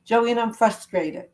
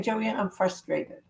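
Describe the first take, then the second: First: Slow, mild frustrated admission; demonstrated frustration. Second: Soft, slow and quiet; quiet aside. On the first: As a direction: say it slowly as if you really mean it. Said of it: "So I'll do it as if it's me". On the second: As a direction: say it quietly, slowly, almost to yourself. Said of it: "You're saying". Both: Shown as a demonstration.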